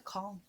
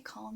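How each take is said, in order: First: Calm said as kawlm with a rounded aw; "calm" with the vowel of caught; "calm" as kawlm, mimicking Tom's correction. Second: Calm said as kahlm with an open ah; "calm" with the vowel of father; "calm" as kahlm, her natural way; her own way. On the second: Retold or imitated. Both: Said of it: "Tom would be saying to me".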